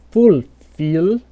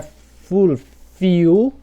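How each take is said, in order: First: Fulfill with a clear English L at the end; tongue up for the final L of fulfill; correct dark L. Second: Fulfill ending in "iu", slow and rising; wrong U-like L. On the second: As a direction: turn the L of fulfill into a U. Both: Shown as a demonstration. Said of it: "não".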